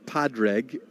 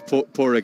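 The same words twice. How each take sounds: First: The D sound in the name is pronounced. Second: The D sound in the name is silent. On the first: The speaker calls it wrong. "it's definitely not Padraig" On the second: The speaker calls it right. "The D is silent"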